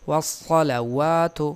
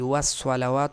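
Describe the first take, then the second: First: The s sound is heavy and full. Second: The s sound is light and thin. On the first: The speaker calls it right. "यहाँ भी स्वाद है" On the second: The speaker calls it wrong. "सीन और वाव नहीं, वस्सलावात नहीं"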